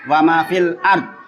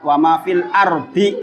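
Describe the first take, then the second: First: The last word ends on a consonant. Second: The last word ends with an i vowel. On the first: The reader stops here. "Tapi kalau wakaf" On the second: The reading continues without stopping. "itu kalau langsung dibaca"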